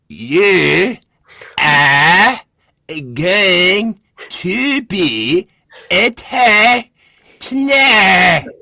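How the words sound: Every word is heavily overemphasized.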